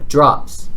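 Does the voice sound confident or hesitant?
confident. The word sounds firm and confident.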